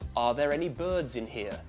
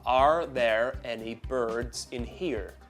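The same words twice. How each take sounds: First: Only the R before a vowel is pronounced, British-style. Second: Every R is pronounced, in an American accent. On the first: "British English is non-rhotic, so you only hear R's that happen before vowels" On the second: "General American is rhotic... you hear every letter R"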